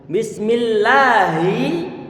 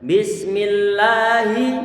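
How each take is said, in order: First: The final vowel is short. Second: The final vowel is drawn out long. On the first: The speaker calls it right. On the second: The speaker calls it wrong.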